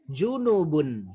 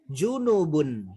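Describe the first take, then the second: First: The vowel after the n is short. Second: The same.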